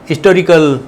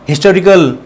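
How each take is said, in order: First: The initial h sound is silent. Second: The initial h sound is pronounced. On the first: This is how it used to be said. "इसमें एच silent" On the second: This is how it is said nowadays. "आजकल इसको"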